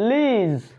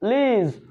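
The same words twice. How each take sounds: Both takes have the same delivery.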